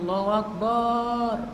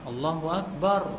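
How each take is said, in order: First: The last vowel of Akbar is drawn out long. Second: The last vowel of Akbar is kept short. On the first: God is a drum. The speaker calls it wrong. "azannya gini" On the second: God is the greatest. The speaker calls it right. "Yang benar apa?"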